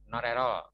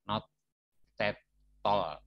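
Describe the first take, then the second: First: It is said quickly, words linked together. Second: It is said slowly, word by word. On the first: The speaker calls it right. "cepet harusnya" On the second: The speaker calls it wrong. "saya pelankan"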